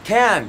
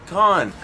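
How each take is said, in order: First: The vowel sounds like the one in 'can'. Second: The vowel sounds like the one in 'con'. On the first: The speaker calls it right. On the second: The speaker calls it wrong. "Don't say con"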